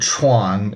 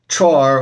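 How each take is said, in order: First: Southern style, ending with an n sound. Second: Northern style, ending with an r sound.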